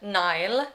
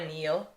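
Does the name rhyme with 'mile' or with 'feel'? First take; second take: mile; feel. First: The name is said with an 'eye' vowel. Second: The name is said with an 'ee' vowel. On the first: This is how the speaker naturally says it. "I say Nile because of the way that I speak" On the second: This is how the audiobook says it. "I wanna say Neil because that's how they say it in the audiobook"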